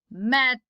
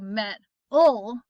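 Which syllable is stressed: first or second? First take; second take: first; second. First: The stress is on the first syllable. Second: The stress is on the second syllable. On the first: The speaker calls it right. "the first one is the one where I put my more of my emphasis" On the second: The speaker calls it wrong. "I don't say metal, right? That's weird"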